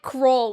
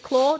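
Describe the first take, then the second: First: The word is said with an R sound. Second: The word is said with an L sound. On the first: The speaker calls it wrong. "they were pronouncing it like Crawl, which was weird" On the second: The speaker calls it right. "It is Claw"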